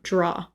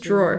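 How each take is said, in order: First: The word ends without any R sound. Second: The word ends with an R sound. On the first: This is how someone from New Jersey says it. "says it um, draw" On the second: This is the speaker's own way of saying it. "I say a drawer too"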